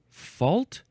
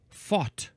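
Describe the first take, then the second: First: The word is said with an L sound. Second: The word is said without an L sound. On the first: It is the ordinary pronunciation. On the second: It is a poetic pronunciation.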